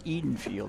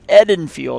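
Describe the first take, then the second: First: The first vowel is a long e sound. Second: The first vowel is a short e sound. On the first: The speaker calls it wrong. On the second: The speaker calls it right. "pronounced as short vowel as in the color red"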